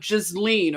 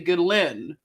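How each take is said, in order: First: The name is said in an American-style pronunciation. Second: The name is said in a French-style pronunciation. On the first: The speaker calls it wrong. "instead of Ghislaine" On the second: The speaker calls it right. "try to say Ghislaine instead of"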